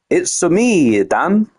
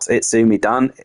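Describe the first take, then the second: First: It is said as separate words: it's, me, Dan. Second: The first part is run together as one word. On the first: The speaker calls it right. "It's me, Dan, like uh, Mario" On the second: The speaker calls it wrong. "You've all been saying it wrong. It's not Itsumi Dan"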